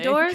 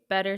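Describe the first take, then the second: First: The name gets a careful, fancy-sounding pronunciation. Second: The name is said casually, sounding like 'better'. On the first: The speaker is making an effort to sound refined. "seems like I'm going to make it fancy" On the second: The speaker is making no effort at all. "seems like I'm not gonna try at all"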